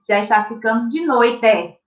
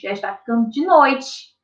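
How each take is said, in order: First: The word noite ends with an 'eh' vowel. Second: The word noite ends with an 'ee' vowel. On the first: The speaker calls it wrong. "Eu não vou ler assim" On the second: The speaker calls it right. "tem sim o som de i"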